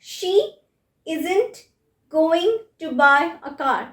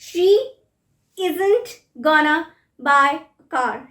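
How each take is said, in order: First: 'Going to' is said as two full words. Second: 'Going to' is squeezed into one word, 'gonna'. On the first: "going to" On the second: "going to becomes gonna"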